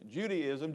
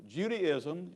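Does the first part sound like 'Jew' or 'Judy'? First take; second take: Judy; Judy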